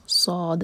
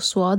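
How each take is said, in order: First: صاد said clean, with no waw sound; صاد with unrounded lips, the correct tajweed way; proper صاد without rounding; correct pronunciation. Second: صاد with a touch of waw, rounded lips; صاد said wrongly, leaning toward a w sound; mispronounced صاد with waw coloring; wrong pronunciation. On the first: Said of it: "یہ ہے صاد". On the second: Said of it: "وہ غلط pronunciation ہے". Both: Shown as a demonstration.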